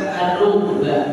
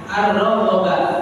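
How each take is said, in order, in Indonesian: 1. Kata itu diakhiri pendek, vokal pertama 'u'. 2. Kata itu dibaca panjang di akhir, vokal pertama 'a'. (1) "bila dipendekkan tanpa ada hamzah di belakang maka dibaca ar-rugba. Roknya di dhamma" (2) "Apabila dipanjangkan maka difathahkan roknya"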